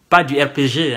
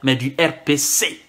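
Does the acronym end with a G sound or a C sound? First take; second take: G sound; C sound. First: The last letter is said as G. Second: The last letter is said as C. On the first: The speaker calls it right. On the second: The speaker calls it wrong. "qui ne savent pas prononcer le G, mais qui disent C, à la place de G"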